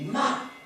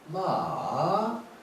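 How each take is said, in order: First: The syllable is said with a falling tone. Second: The syllable is said with a falling-rising tone. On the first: It means to scold. "사성은 마 이러면 마 하고 욕할 때 하는 말" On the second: It means a horse. "삼성으로 마 이러면은 이것은 타는 말이에요"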